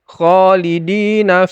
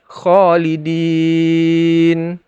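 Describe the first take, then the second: First: The long vowel is held briefly, two beats. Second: The long vowel is stretched out, up to six beats. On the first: The reading continues without stopping. "di tengah khalidina fiha, maka di-nya itu dina itu adalah mad asli atau mad tabi'i. Jadi dibaca dua harokat" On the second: The reading stops at this word. "kalau dia berhenti khalidin, maka boleh bisa dibaca hingga enam harokat"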